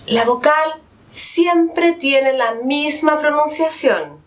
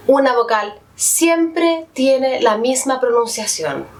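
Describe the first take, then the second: First: "siempre" leaned on, and the whole rule said slowly and deliberately; slow down and hit "siempre" to drive the rule home; slower, stressed repeat. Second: Said in the usual way. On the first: Shown as a demonstration. (repetición lenta, acentuando "siempre") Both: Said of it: "teacher repeats the rule".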